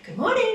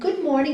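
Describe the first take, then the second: First: It is said brightly, with high energy. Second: It is said quietly, with low energy. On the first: "but not good morning, da da da da da da" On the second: "quietly feeling this deep peace"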